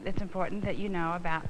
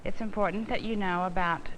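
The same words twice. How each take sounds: The two takes are said the same way.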